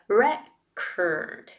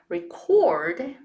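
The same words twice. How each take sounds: First: The stress is on the first syllable. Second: The stress is on the second syllable. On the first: It is the noun. "The noun form is record. Re is the strong one" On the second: It is the verb. "if you switch the stressed syllable to record, it becomes the verb"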